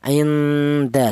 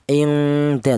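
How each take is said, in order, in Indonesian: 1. Bunyi n-nya samar, dengungnya hanya ringan. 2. Bunyi n-nya berdengung panjang dan kuat. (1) "bunyi yang dihasilkan adalah vokalnya adalah nn" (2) "Tidak boleh yang lebih dominan dengungnya"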